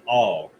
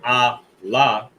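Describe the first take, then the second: First: The sounds are joined into a single syllable. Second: The two sounds are said as separate syllables. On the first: The speaker calls it right. "you connect it" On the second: The speaker calls it wrong. "instead of saying ah la, right, which is a whole nother word"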